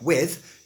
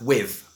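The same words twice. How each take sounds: First: The word ends with a TH sound. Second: The word ends with a V sound.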